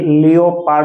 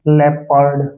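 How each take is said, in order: First: It is said with three syllables, lee-oh-pard. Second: It is said with two syllables, leh-perd. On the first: The speaker calls it wrong. "नियम के अनुसार तो ये लियोपार्ड होना चाहिए" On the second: The speaker calls it right. "इसकी ध्वनि है वो लेपर्ड है"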